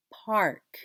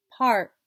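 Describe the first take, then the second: First: Said in the usual way. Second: PARK with the K released separately; loud PAR, tiny gap, crisp K in PARK; final sound isolated. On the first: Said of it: "Now let's catch that sound". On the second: Shown as a demonstration. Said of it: "let's catch that sound".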